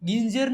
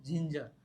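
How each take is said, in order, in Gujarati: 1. તે કઠોર g અવાજથી શરૂ થાય છે. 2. તે નરમ j અવાજથી શરૂ થાય છે. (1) "ગિંજર ને" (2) "જિંજર વાંચી"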